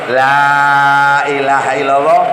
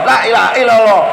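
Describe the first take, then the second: First: The first vowel is held long. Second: The first vowel is cut short. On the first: It denies any god besides God. The speaker calls it right. "Lek nganggo tajwid la ilaha illallah lima harokat" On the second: It affirms a god besides God. The speaker calls it wrong. "lah lame malah lam tauhid, bukan lamnya lam nafi"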